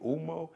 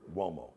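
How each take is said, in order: First: It starts with a plain vowel, no W sound. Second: It starts with a W sound before the vowel. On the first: The speaker calls it wrong. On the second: The speaker calls it right. "The U O is like, got the W sound"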